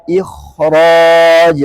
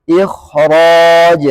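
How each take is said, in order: The two takes are said the same way.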